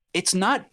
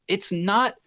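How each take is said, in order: Both takes have the same delivery.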